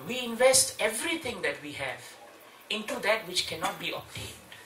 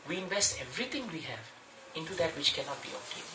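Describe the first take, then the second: First: Said in the usual way. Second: "we invest everything we have" said softer, hushed as a quotation; quiet scriptural quote; quoting scripture. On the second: Shown as a demonstration. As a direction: drop the voice to quote the Bhagavatam. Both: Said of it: "Bhagavatam says".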